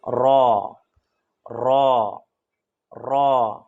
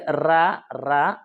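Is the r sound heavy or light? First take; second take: heavy; light. First: The r sound is heavy and thick. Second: The r sound is light and thin. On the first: The speaker calls it right. "मोटी आवाज़ में थोड़ी इसको पढ़ देनी है" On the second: The speaker calls it wrong. "रा रा नहीं कहना है"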